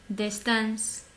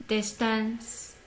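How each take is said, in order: Both takes have the same delivery.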